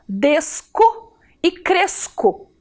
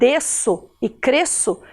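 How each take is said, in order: First: The middle consonant sounds like a K. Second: The middle consonant sounds like an S. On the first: "Se eu não colocar o cedilha, eu tenho que ler a palavra assim" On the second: "eu preciso colocar o cedilha no C"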